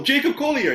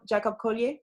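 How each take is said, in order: First: Jacob Collier said the English way, JAY-cub COLL-ee-er; English Jacob Collier, stress on JAY; English pronunciation. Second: French pronunciation of Jacob Collier; French accent. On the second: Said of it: "I said that with my French accent". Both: Real, not acted.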